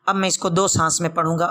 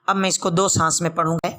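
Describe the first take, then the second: The two takes are said the same way.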